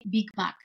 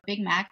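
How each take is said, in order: First: It is said with a Bulgarian accent. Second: It is said with an American English accent. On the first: Locals would understand it. The speaker calls it right. "I have to say Big Mac" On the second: Locals would not understand it. The speaker calls it wrong. "I will not pronounce it in an American way"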